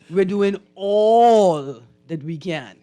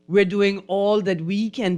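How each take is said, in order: First: The word 'all' carries strong stress. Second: The word 'all' carries no special stress. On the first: The speaker calls it right. "much better" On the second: The speaker calls it wrong. "But you didn't stress the word all"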